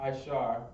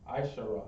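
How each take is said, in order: First: Ishar in two syllables, no final "a"; mistaken pronunciation. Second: Ishara in three syllables, final "a" sounded; corrected pronunciation. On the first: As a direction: say Ishar, ending on the "r". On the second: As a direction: say Ishara, adding "a" after the "r". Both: Shown as a demonstration. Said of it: "Not Ishar".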